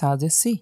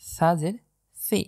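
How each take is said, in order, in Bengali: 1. ব্যঞ্জনটি হলো সাধারণ ফিসফিসে 's'। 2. ব্যঞ্জনটি নরম, জিভের ডগা দিয়ে উচ্চারিত। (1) "আপনি যদি আমার মতো এভাবে পড়ে থাকেন তাহলে আপনি সম্পূর্ণই ভুল পড়ছেন" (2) "জিব্বার আগা থেকে নরম করে উচ্চারণ হবে সি"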